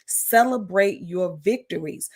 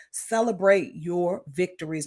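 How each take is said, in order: First: "Celebrate your victories" drawn out slowly for emphasis; slow down and stress each word of "Celebrate your victories"; emphatic repeat. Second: Said in the usual way. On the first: Real, not acted. Coach urging followers, "Celebrate your victories" said slowly and emphatically. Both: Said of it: "I can't emphasize that enough".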